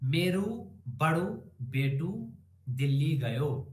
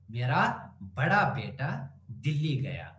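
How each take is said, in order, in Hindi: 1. इन शब्दों के अंत में 'u' और 'o' स्वर हैं। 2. इन शब्दों के अंत में सादा 'a' स्वर है।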